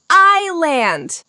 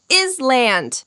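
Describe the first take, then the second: First: "island" said EYE-lund, no s; slowly, "island" with silent s. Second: "is land" said with a clear s; slowly, "is land" with s sounded; wrong pronunciation. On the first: Teacher models the correct form, "island" without s. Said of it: "We say island". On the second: Teacher shows the wrong form, "is land" with s. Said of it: "we don't say is land". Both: Shown as a demonstration.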